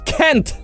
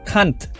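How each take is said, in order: First: The vowel sounds like 'eh'. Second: The vowel sounds like 'ah'. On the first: The speaker calls it wrong. "Ini kan dipakai huruf E nih" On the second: The speaker calls it right. "Pakai huruf A ya"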